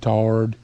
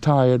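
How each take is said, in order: First: It is said in a country accent. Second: It is said in a standard accent.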